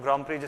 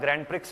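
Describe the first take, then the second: First: The final x sound is left silent. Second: The final x sound is clearly pronounced. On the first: The speaker calls it right. "ग्रांड प्री जिसको हम लोग बोलते हैं" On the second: The speaker calls it wrong. "जिसको मैं शुरुआत में ग्रैंड प्रिक्स बोला करता था, बाद में मुझे पता चला कि ग्रैंड प्रिक्स नहीं बोलते हैं"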